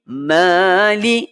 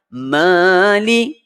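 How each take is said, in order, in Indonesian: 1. Vokal pertama panjang. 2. Vokal pertama panjang.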